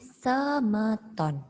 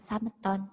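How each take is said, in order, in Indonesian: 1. Vokal pertama diucapkan sebagai 'e'. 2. Vokal pertama diucapkan sebagai 'a' yang jelas. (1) "tapi semeton" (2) "Jangan diucapkan sameton"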